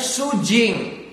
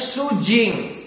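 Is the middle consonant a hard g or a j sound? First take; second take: j sound; j sound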